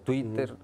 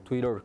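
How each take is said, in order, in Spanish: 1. La palabra se pronuncia con sonidos de estilo español. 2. La palabra se pronuncia con sonidos de estilo inglés.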